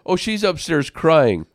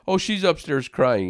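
First: Put-on louder, higher proud little boy; proud child. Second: Mildly voiced proud kid reporting news; a hint of a boy proudly telling; proud child. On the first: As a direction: announce it like a kid proud of the news. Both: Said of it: "He was kinda proud to tell me that".

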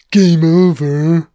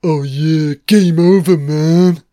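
First: Slow, loud, stretched game over; Hudson impression, drawn out. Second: Loud panicked Hudson yell, much louder; Hudson impression. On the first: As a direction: drag game over out in dismay. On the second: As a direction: bark game over like a panicking marine. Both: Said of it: "it's Hudson".

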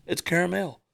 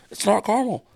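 First: Caramel in three syllables, KAIR-uh-mel. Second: Caramel clipped to two syllables, KAR-mul. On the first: Host asserting KAIR-uh-mel. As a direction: give caramel its middle syllable. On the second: Host rejecting the short KAR-mul. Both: Shown as a demonstration.

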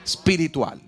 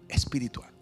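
First: Said in the usual way. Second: Whispered echo. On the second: Shown as a demonstration. Preacher drops Espiritual to a whisper for the congregation. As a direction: breathe the word Espiritual as a soft whisper. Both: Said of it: "Otra vez".

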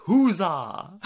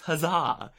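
First: "Huzzah" with the stress on the first syllable; mispronounced huzzah. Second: "huzzah" with the stress on the last syllable, huz-ZAH; correct huzzah. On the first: Retold or imitated. Mimicking a queen stressing "Huzzah" wrongly. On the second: Shown as a demonstration. Podcast host showing the right way to say "huzzah". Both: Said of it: "She was emphasizing the wrong vowel".

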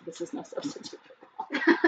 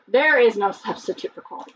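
First: Slogan whispered through giggles; breathless laughing reread of the slogan. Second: Said in the usual way. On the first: Shown as a demonstration. Host rereads snack slogan to co-host, laughing.

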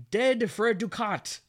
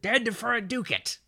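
First: High, loud theatrical cry with ducat said "DOO-kaht"; mock yell. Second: High, loud stage shout with ducat said "DOO-kit"; mock yell. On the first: Hamlet yelling at the moving curtain, hammed-up yell. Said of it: "Hamlet notices the moving curtain and yells". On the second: Correcting how Hamlet yells it at the curtain, hammed-up yell. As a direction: yell it hammily, reducing the end of "ducat" to "-kit". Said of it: "I think he pronounces it".

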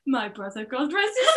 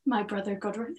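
First: Put-on quiet Welsh accent, rising on soul. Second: Put-on a weak try at Bryn's Welsh accent. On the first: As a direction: Welsh accent, lilting up at the end. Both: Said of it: "I can't do that accent".

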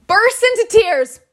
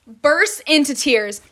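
First: Pitched higher and louder, slowed, leaning on into; emphatic first telling. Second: Said in the usual way. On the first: Real, not acted. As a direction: hit bursts into tears hard and high. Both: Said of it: "repeated for emphasis".

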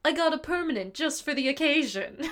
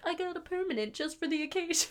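First: Raised, put-on Cowardly Lion voice; hammed-up lion bragging; lion voice impression. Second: Raised, quieter put-on lion voice; lightly hammed lion boast; lion voice impression. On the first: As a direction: lightly mimic the lion's proud line. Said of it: "He goes". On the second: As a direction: mimic the lion's proud line softly. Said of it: "he's like".

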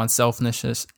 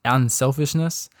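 First: Unselfishness stumbled as unselfnishness; tongue-tied slip. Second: Unselfishness said slowly and cleanly, each syllable clear; careful correction. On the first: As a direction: trip over the middle of unselfishness. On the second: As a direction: fix the slip, spell out unselfishness. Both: Real, not acted.

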